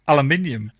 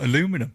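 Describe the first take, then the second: First: It is said the British way, with five syllables. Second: It is said the American way, with four syllables. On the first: "If you say it how you say it" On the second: "and not aluminum"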